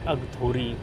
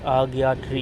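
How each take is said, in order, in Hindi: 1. नाम को 'gtho' ध्वनि के साथ बोला जाता है। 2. नाम को 'gya' ध्वनि के साथ बोला जाता है। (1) "इंग्लिश में अगथोरी है" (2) "इसके नाम जो है वो आग्यात्री है"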